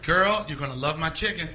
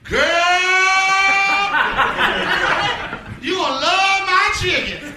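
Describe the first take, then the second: First: It is said in a plain, polished acting voice. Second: It is said in an exaggerated put-on commercial voice.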